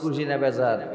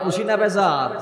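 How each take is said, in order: First: The question is said quietly and softly. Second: The question is said loudly and forcefully. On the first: "একটু আসতে বলি" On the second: "আরো জোরে"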